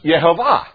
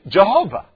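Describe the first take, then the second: First: The name begins with a Y sound. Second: The name begins with a J sound. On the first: This is the original pronunciation. "it's pronounced Yehovah" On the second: This is the common present-day pronunciation. "we say Jehovah"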